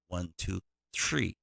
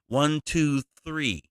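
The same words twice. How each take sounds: First: Three begins with a 't' sound, like tree. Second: Three begins with a 'th' sound. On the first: The speaker calls it right. "they they pronounce three as tree" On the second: The speaker calls it wrong.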